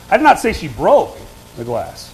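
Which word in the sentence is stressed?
broke. The stress falls on the word broke. She did something else to the glass. "Now what am I saying? She didn't break"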